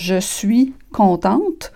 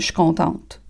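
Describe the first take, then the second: First: The words are pronounced fully and carefully. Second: The words are said fast and reduced together. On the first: This is the standard form not used casually. "plutôt que de dire" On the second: This is casual speech to a friend. "Si je parle vite, là, je suis pressée, puis je parle... À une amie"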